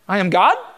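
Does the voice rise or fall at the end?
rise. The voice rises at the end, like a question.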